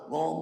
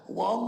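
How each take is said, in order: First: It is said in the speaker's normal accent. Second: It is said in a put-on Chinese accent.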